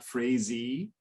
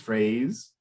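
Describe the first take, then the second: First: An extra vowel is pronounced at the end. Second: The word ends with no extra vowel. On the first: The speaker calls it wrong. "so it's not phrasey" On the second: The speaker calls it right. "there's a silent e at the end of it"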